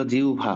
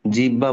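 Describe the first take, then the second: First: জিহ্বা said as jiubha, with a clear u-bh glide; correct pronunciation. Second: জিহ্বা said as jiba, skipping the hb sound; the mistake: জিহ্বা as plain jiba; wrong pronunciation. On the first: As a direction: model জিহ্বা as jiubha for students. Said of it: "আমরা বলবো জিহ্বা". (সঠিক উচ্চারণ, জিউভা) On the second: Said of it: "জিহ্বা বলবো না". (ভুল উচ্চারণ, জিবা) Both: Shown as a demonstration.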